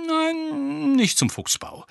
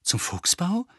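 First: Drawn-out high "Nein", then falling to "Fuchsbau"; negating answer. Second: "Fuchsbau" rising high as a question; hopeful. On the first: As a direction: stretch "Nein" high, let "Fuchsbau" drop. Lupin answers the hopeful question no. (gedehntes hohes "Nein", "Fuchsbau" fallend) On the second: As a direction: ask hopefully, lifting the end of "Fuchsbau". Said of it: "fragte Harry hoffnungsvoll". (hoffnungsvoll fragend, "Fuchsbau" steigt an) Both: A narrator's reading.

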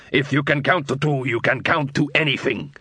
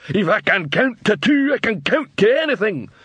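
First: Said in the usual way. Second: Troll voice. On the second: A narrator's reading. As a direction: echo it back like a dim troll. Troll repeats.

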